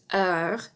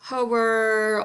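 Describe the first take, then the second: First: It sounds like 'her' without the h. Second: It sounds like the English word 'hour'. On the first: The speaker calls it right. "kind of like the word her, only without the H sound" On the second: The speaker calls it wrong. "or hour, ... but those are incorrect"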